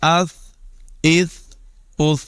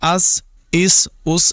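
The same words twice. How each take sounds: First: The consonant is said without any whistling hiss. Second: The consonant is said with a whistling hiss. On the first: The speaker calls it right. "सिटी की आवाज इसमें पैदा नहीं होने देंगे" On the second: The speaker calls it wrong. "अस इस उस नहीं पढ़ेंगे"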